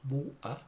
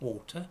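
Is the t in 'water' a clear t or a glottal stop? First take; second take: glottal stop; clear t. First: The t is replaced by a glottal stop. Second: The t is pronounced as a clear t. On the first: "uses a lot of glottal stops and says water" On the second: "instead of water"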